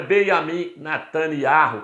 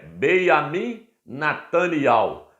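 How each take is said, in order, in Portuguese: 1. O nome termina com o som áspero 'iarro'. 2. O nome termina com o som suave 'iau'. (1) "Não é ... como certos jornalistas dos jornais aí falam" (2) "O nome dele é"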